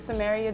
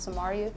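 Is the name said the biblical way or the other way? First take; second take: biblical; other. First: The name is said as the biblical city. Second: The name is said unlike the biblical city. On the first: This is how most people assume it is said. The speaker calls it wrong. "the Bible pronunciation is is Samaria" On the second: This is how the name is actually said. The speaker calls it right. "but it's Samaria"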